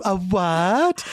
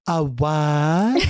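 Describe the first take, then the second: First: A light, lightly feminine "A what?" poking fun; mock feminine voice. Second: A hint of a mincing feminine "A what?"; lightly mock the city guy with a little feminine lilt. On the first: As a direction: tease him with a touch of a girly voice. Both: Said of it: "putting on a little feminine".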